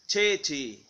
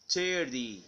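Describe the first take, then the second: First: The t is a strong, crisp t. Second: The t sounds like a soft d. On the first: "British titty" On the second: "American thirty"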